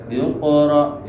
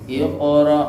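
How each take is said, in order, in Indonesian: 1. Mantulnya q ringan dan bersambung ke bagian berikutnya. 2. Mantulnya q ringan dan bersambung ke bagian berikutnya.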